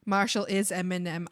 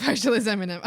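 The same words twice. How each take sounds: First: Said in the usual way. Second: Amused, laughing at yourself. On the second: Real, not acted. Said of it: "Oh, I see".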